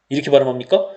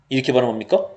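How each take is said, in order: Both takes have the same delivery.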